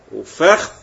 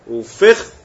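First: وفخذ said as fekh, with a rising tune; second variant of فخذ; pronunciation demo. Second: وفخذ said as fekhth, loud, with a rising tune; pronunciation demo. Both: Shown as a demonstration. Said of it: "أربع لغات".

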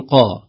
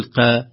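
First: "قا" with a full, dark back vowel; heavy qāf. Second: "قا" thinned, with a fronted "eh" vowel; wrong light qāf. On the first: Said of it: "القاف نقول قا". («قا» بقاف مفخمة) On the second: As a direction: say "قا" thin, without any heaviness. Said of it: "ما نقول قا". («قا» بقاف مرققة) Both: Shown as a demonstration.

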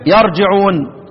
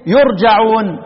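First: يرجعون as yarji'un; fatha on the ya. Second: يرجعون as yurja'un; damma on the ya. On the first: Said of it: "وبفتحها على معنى". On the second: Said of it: "يقرأ بضم الياء". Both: Shown as a demonstration.

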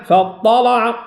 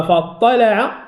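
First: "فاطلع" with a thick, dark L; heavy, thickened lam. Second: "فاطلع" with a clear, light L; light, thin lam. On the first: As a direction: chant "فاطلع" with back A after the L. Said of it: "الأزرق هنا فخم اللام". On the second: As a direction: say "فاطلع" with fronted A after the L. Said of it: "غير الأزرق". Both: Shown as a demonstration.

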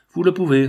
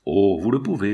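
First: POUVEZ urged with VOUS LE, higher and louder; emphatic, high and loud "Vous le pouvez"; insistent repeat. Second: Said in the usual way. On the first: A narrator's reading. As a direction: press "Vous le pouvez" home, raised in pitch and volume.

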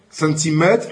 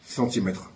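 First: Rising teacher prompt. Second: Said in the usual way. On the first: Shown as a demonstration.

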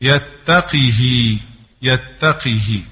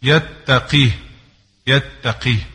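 First: يتقه said slowly as yattaqihi; يتقه slowly, Asbahani reading; slow kasra on qaf and haa. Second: يتقيه said as yattaqih, haa unvoweled; يتقيه with sukun on haa, Hafs reading; silent haa. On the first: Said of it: "بكسر القاف والهاء". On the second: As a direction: end يتقيه on a still haa. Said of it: "بكسر القاف وإسكان الهاء". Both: Shown as a demonstration.

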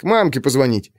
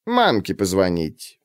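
First: Said in the usual way. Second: Low, slow, mocking echo; snide. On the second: A narrator's reading. Woman mockingly repeats the boy's excuse, low. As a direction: throw the lie back at him. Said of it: "ехидно спросила тётка".

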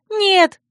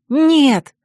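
First: Very high cry of no; alarmed cry. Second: Loud, higher, jubilant no; joyful refusal. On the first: Friend drags the heroine from the window, crying out. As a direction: cry out to stop her. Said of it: "вскричала Царья". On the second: Heroine jumps up with a new plan, joyfully. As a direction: cry it out in delight. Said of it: "радостно подпрыгнула я". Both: A narrator's reading.

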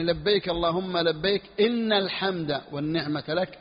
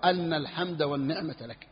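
First: إن said with kasra as "in"; teacher demonstrating إن with kasra; kasra on inna. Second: أن said with fatha as "an"; teacher demonstrating أن with fatha; fatha on anna. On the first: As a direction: give إن a clear kasra, "inna l-hamda". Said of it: "وفتح الهمزة أو كسرها". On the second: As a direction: open أن with a fatha, "anna l-hamda". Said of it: "أو كسرها". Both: Shown as a demonstration.

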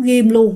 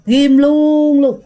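First: Said in the usual way. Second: "ghim luôn luôn" dragged out very slowly and louder; emphatic grudge. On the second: Shown as a demonstration. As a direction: lean hard on "ghim luôn luôn", stretching each word.

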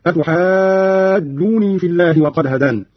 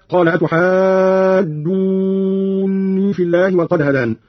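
First: أتحاجوني with a short "joo" and single n; don't double or hold the n in أتحاجوني; light nun, natural madd. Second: Said in the usual way. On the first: Shown as a demonstration. Teacher demonstrating Qalun, أتحاجوني slow with a single light n. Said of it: "بتخفيف النون ويصير مد الجيم مدا طبيعيا". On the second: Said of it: "قرأ قالون بتخفيف النون".

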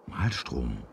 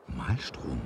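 The two takes are said the same way.

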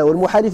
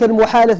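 First: والمحالف with an i in the last syllable, muhalif; kasra on والمحالف. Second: المحالف with an a in the last syllable, muhalaf; fatha on المحالف. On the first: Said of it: "بالكسر". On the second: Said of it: "بالفتح الأعلى". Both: Shown as a demonstration.

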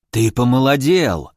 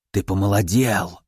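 First: Lightly voiced old hermit, struck by a discovery; astonished old man. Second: Put-on astonished old man. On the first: Old hermit notices the stranger is younger, mildly astonished. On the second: Old hermit confirms the visitor got younger, low wonder. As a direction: sink low in wondering certainty, lightly aged voice. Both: A narrator's reading.

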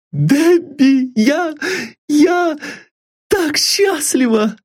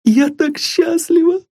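First: Very high, breathless with happiness; a girl stammering out her joy; high joyful girlish voice, slower at the end; overjoyed young girl. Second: Very high, bursting with happiness; a girl who can hardly believe her luck; high joyful girlish cry; overjoyed young girl. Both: A narrator's reading. Sylvia overjoyed.

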